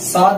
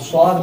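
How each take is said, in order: First: The first consonant is light, like a plain s. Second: The first consonant is heavy and thick-sounding. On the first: The speaker calls it wrong. "ये वाली सीन की आवाज नहीं आना, साद नहीं बोलना" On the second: The speaker calls it right. "स्वाद बोलना, मोटा पढ़ेंगे इसको"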